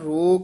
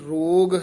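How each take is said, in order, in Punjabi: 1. ਸ਼ਬਦ ਦੇ ਅੰਤ ਵਿੱਚ ਕੋਈ ਗ ਦੀ ਆਵਾਜ਼ ਨਹੀਂ ਹੈ। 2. ਸ਼ਬਦ ਦੇ ਅੰਤ ਵਿੱਚ ਸਾਫ਼ ਗ ਦੀ ਆਵਾਜ਼ ਹੈ।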